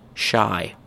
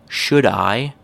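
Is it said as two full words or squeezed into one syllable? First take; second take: one syllable; two words. First: The words are squeezed into one syllable. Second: Both words are said fully and separately. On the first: "becomes shy" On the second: "Let's start from the full form"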